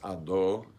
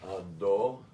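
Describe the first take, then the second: First: The final vowel sounds like 'oh'. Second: The same.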